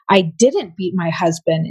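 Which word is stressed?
didn't. The word didn't carries the main stress. The act never happened at all. "implied you didn't"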